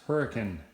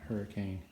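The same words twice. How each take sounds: First: The name is said the local way. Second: The name is said the outsider way. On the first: This is how locals say it. The speaker calls it right. "no, it's Hurricane" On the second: Someone not from the area said it. The speaker calls it wrong. "not Hurricane"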